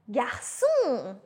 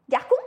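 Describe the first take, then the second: First: The middle consonant is a soft s sound. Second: The middle consonant is a hard k sound. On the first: The speaker calls it right. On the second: The speaker calls it wrong.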